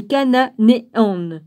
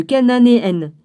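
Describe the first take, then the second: First: Slow "cananéennes", broken into "ca-na-né-ennes"; halting, slow "cananéennes" with the syllables separated; syllable-by-syllable reading. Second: Said in the usual way. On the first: Real, not acted. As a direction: sound out "cananéennes" one syllable at a time. Stumbles, then repeats the word.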